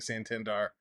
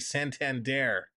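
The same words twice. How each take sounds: First: The last syllable ends with an 'ar' sound. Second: The last syllable ends with an 'air' sound. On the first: The speaker calls it wrong. "I've been saying Santander" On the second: The speaker calls it right. "Like saying air at the end"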